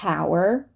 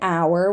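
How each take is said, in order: First: The word begins with an audible h sound. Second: The word begins with a vowel, no h. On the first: The speaker calls it wrong. "We do not say hour" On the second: The speaker calls it right. "we're not going to say the H at the beginning of a word"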